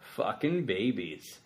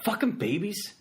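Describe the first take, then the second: First: It is said in a calm, flat tone. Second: It is said in an angry, annoyed tone. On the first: The phrase describes an act done to babies. "there's no babies crying" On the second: The speaker is annoyed by crying babies. "there's a bunch of babies crying and you're mad"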